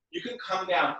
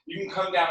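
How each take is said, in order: First: Real accidental crack in the voice. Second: Said in the usual way. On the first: Real, not acted. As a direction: let the voice crack briefly mid-instruction. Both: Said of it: "Oh, my voice cracked".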